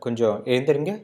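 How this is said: It is said in a polite tone.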